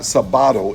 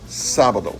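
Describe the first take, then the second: First: The stress is on the second syllable. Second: The stress is on the first syllable. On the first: The speaker calls it wrong. "It's not sabado" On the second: The speaker calls it right. "there's an accent mark on the first syllable"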